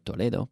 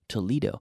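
First: It is pronounced the Spanish way. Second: It is pronounced the American English way. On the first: This is the original city the place is named after. "Named after Toledo" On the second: This is how locals say the American city's name. "but we say Toledo"

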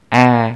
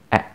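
First: The vowel is held long. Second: The vowel is cut short. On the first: "yang ini panjang" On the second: "yang ini pendek"

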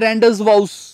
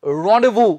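First: It is said letter by letter, ending in 'vous'. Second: It is said 'rondevoo', with no z or s. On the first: The speaker calls it wrong. "ਦੇਖਣ ਚ ਤਾਂ ਇਹ ਲੱਗਦਾ ਹੈ ... ਨਹੀਂ ਇਹ ਨਹੀਂ ਹੁੰਦਾ" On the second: The speaker calls it right. "ਸਹੀ ਉਚਾਰਨ ਹੈ ਰॉन्डेवू"

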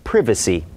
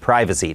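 First: The first vowel sounds like "it". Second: The first vowel sounds like "eye". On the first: "ถ้าเป็นชาวอังกฤษก็คือ" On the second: "แต่อันนี้เป็นการออกเสียงแบบอเมริกัน"

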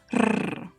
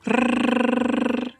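First: The R sound is short and not prolonged. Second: The R sound is drawn out and prolonged.

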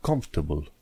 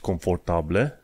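First: Some syllables are skipped in the middle. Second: Every written syllable is pronounced fully. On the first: The speaker calls it right. "ai sărit peste câteva" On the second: The speaker calls it wrong. "Nu zici confortable"

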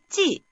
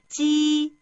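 First: The pitch falls sharply from high to low. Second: The pitch stays high and level.

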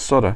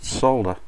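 First: The L sound is dropped from the word. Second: The L sound is pronounced in the word. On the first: This is how North Americans say it. "Americans and Canadians pronounce it ... Just totally leave a letter out of your word" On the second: This is how the speaker's own region says it. "we pronounce it solder here"

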